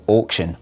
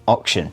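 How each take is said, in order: First: Auction with a long 'aw'; drawn British vowel in auction; British pronunciation. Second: Auction as ok-shun; short 'o' opening auction, like ox; Aussie pronunciation. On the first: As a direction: say auction as awk-shun. British then Aussie take. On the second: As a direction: say auction the Australian way. Aussie correction of the word. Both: Shown as a demonstration.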